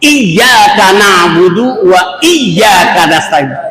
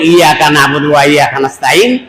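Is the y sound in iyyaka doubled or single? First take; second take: doubled; single. First: The y sound is held with a sharp jolt. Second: The y sound is short without any jolt. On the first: The speaker calls it right. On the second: The speaker calls it wrong.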